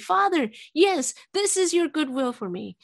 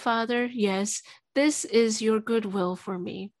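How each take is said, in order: First: It is called out loudly. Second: It is spoken quietly. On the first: The prayer is fully released. The speaker calls it right. "raise my voice and call out loudly" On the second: The prayer is held back. The speaker calls it wrong. "you're too quiet"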